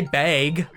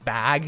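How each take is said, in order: First: The vowel sounds like the one in bagel. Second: The vowel sounds like the one in rag. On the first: This is how people in this region say it. "we say bag, like bagel" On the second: This is how people elsewhere say it. "it's bag if you live anywhere else"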